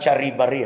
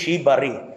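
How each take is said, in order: First: The word starts with a hard ch sound. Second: The word starts with a soft sh sound. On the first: The speaker calls it wrong. "not charibari" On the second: The speaker calls it right. "the pronunciation should be shibari"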